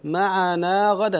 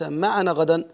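First: The long vowel is held for two counts. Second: The long vowel is cut short and dropped. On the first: The speaker calls it right. "معنا غدا ليس" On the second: The speaker calls it wrong. "ليس معنا غدا"

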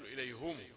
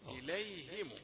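First: The h is followed by a u vowel. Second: The h is followed by an i vowel. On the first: The speaker calls it wrong. "أنت بتضم الهاء تقول إليهم" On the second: The speaker calls it right. "الهاء مكسورة ثم الميم مضمومة"

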